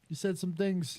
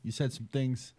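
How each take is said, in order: First: Higher, put-on mobster voice; De Niro impression. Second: Movie quote. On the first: Friend recalls the movie scene, gangster impression. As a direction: quote the Goodfellas gangster. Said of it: "the famous Billy Bat scene where he's like". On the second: Retold or imitated. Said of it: "Billy Bat scene where he's like".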